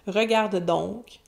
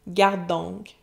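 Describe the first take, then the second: First: The verb is said in full, with every syllable. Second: The verb drops its first syllable.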